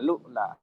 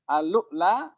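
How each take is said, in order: First: The word begins directly with lu. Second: The word begins with the syllable al. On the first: The connecting hamza is omitted. "Hamzah wasalnya diisbat atau dihilangkan di cara ketiga" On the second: The connecting hamza is retained. "Mengisbatkan hamzah"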